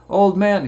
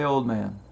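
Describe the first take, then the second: First: Put-on higher, louder boyish call; boy's reply. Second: Said in the usual way. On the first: Boy on the rocks answers the old man, higher louder boyish call. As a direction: pipe up like a kid looking up. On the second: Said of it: "he probably didn't say".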